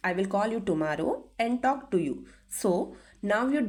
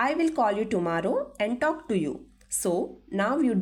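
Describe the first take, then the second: No difference in how they are said.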